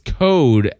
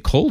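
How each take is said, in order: First: The L sound is left out of the word. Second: The L sound is clearly pronounced in the word. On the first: "you drop the L where it belongs. You say it's code outside" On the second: "I always thought I say cold outside"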